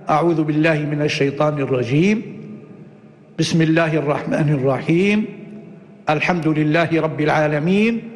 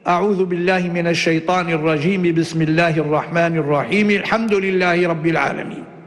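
First: Pauses come after both the first and second phrases. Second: All three phrases run together without any pause. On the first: "هذا قطع الجميع" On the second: "وصل الجميع"

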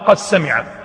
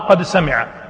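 First: The d sound is merged into the s. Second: The d sound is clearly pronounced before s. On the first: "الوجه الثاني إدغام" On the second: "الوجه الأول إظهار"

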